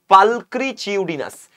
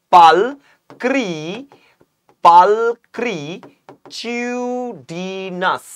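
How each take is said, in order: First: পালক্রিচিউডিনাস said slowly as one joined word; word demonstration. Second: Very slow, syllable-by-syllable পালক্রিচিউডিনাস; শব্দ টেনে শেখানো. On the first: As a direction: say পালক্রিচিউডিনাস slowly and distinctly, without long stretching. (পালক্রিচিউডিনাস একটানা, স্পষ্ট করে বলা) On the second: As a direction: stretch each syllable of পালক্রিচিউডিনাস, holding the vowels long. (পালক্রিচিউডিনাস খুব ধীরে, টেনে টেনে বলা) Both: Shown as a demonstration. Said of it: "তোমাদেরকে আমি শিখিয়ে দিয়েছিলাম".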